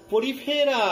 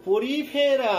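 First: পরিফেরা said slowly and clearly for the class to repeat; model pronunciation. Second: পরিফেরা said again, clear and even; model pronunciation repeated. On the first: Teacher models পরিফেরা so students repeat aloud. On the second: Teacher repeats পরিফেরা for class to say together. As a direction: repeat পরিফেরা steadily for students to echo. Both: Shown as a demonstration. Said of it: "আমার সাথে সাথে সবাই উচ্চারণ করবে".

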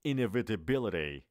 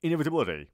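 First: Inevitability drawn out syllable by syllable; slower demo. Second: Quick American-style inevitability; quick, accented. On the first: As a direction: take Inevitability slowly and clearly. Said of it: "آرومتر". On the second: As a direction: run inevitability together, raised and firm. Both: Shown as a demonstration.

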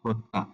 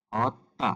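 First: "হত্যা" as rounded ho-tta; সঠিক উচ্চারণ. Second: "হত্যা" as open haw-tta; ভুল উচ্চারণ. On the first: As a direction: say "হত্যা" with o after h. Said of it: "সঠিক উচ্চারণটি হবে". ("হত্যা"-য় হ-এ ও ধ্বনি) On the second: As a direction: say "হত্যা" with aw after h. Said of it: "আমরা অ উচ্চারিত করি". ("হত্যা"-য় হ-এ খোলা অ) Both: Shown as a demonstration.

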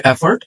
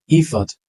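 First: এফর্ট said "E-fort" with sounded r; full second vowel and r in এফর্ট; mistaken pronunciation. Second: ইফর্ট said "IF-ut", silent r; weak second vowel, no r in ইফর্ট; correct pronunciation. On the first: Teacher quoting what we say, এফর্ট as e-fort. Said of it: "আমরা বলি". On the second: Teacher correcting learners, ইফর্ট as if-ut. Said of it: "এফর্ট না". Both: Shown as a demonstration.

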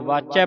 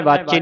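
First: ਵਾਚੈ ending in an open ai; correct reading. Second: ਵਾਚੇ ending in a close e; misreading. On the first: Teacher giving the correct reading, open-ended ਵਾਚੈ. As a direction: open the last vowel of ਵਾਚੈ, as in "cat". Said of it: "ਵਾਚੈ ਪੜ੍ਹਨਾ ਹੈ". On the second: Teacher showing what not to read, close e in ਵਾਚੇ. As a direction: finish ਵਾਚੇ on a narrow "ay" vowel. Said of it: "ਵਾਚੇ ਨਹੀਂ ਪੜ੍ਹਨਾ". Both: Shown as a demonstration.

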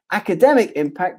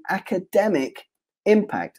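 First: Said in the usual way. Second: "academic" and "impact" set apart by a pause, each falling; emphasized academic impact. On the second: Shown as a demonstration. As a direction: lean on "academic impact", word by word. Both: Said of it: "I emphasize the word academic impact".

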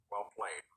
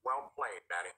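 First: Much lower and softer smug; lower still. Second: Much lower, quiet smug voice; deep smug mutter. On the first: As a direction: sink even deeper, quieter. Repeated even lower. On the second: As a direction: drop far down low, smug. Jeffy drops very low. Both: Acted.

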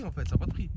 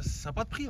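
First: Said in the usual way. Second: High excited gush. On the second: Real, not acted. Gushing over the villa.

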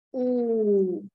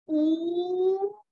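First: Long U released, falling lower; relaxed long vowel. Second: Long U held tense, rising higher; tense long vowel. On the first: Teacher contrasting two sounds for students, relaxed falling U. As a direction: let U slide down loosely. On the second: Teacher contrasting two sounds for students, tense rising U. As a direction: stretch U upward. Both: Shown as a demonstration. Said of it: "Tại sao là nó lại khác nhau".

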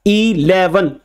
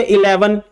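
First: "इलेवन" with a long, separate "ee" at the start; opening E sounded out. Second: Said in the usual way. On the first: Shown as a demonstration. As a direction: draw out the first sound of "इलेवन" as ee-leven. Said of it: "पहला ई का sound है". ("इलेवन" का पहला ई अलग और लंबा बोलें) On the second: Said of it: "इसमें ई है".

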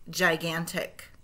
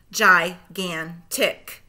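First: Said in the usual way. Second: Slow, split into syllables; segmented syllables. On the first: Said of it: "blend them all back together". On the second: Shown as a demonstration. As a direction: chop Gigantic into its syllables, slowly. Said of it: "say the syllables in segments".

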